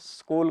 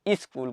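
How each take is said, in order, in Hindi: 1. शब्द सीधे s वाले संयुक्त व्यंजन से शुरू होता है। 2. प्रारंभिक s से पहले एक अतिरिक्त स्वर जोड़ा जाता है।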